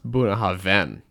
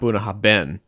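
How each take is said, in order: First: The middle 'bh' is said as a v sound. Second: The middle 'bh' is said as a b sound. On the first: The speaker calls it right. "The BH makes a V sound" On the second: The speaker calls it wrong. "We've all been pronouncing it wrong. It's not"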